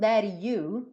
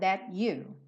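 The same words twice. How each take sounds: First: The T is a quick tapped flap before you. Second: The T is a clear stop before you. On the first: "pegando um rararã nesse T" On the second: "That, T, consoante oclusiva"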